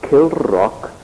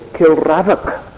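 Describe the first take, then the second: First: The name is said with two syllables. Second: The name is said with three syllables. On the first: The speaker calls it right. "But it's called Kilrock Castle" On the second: The speaker calls it wrong. "If you pronounced it the way it's spelled, you would have to say"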